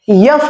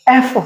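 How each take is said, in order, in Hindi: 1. स्वर से पहले य की ध्वनि होती है। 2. यह सीधे स्वर की ध्वनि से शुरू होता है। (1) "यफ नहीं होता है" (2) "एफ होता है"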